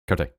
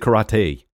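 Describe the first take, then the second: First: It is said closer to the Japanese pronunciation. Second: It is said with an English pronunciation. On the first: The speaker calls it right. "but it's more like karate" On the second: The speaker calls it wrong. "you said karate"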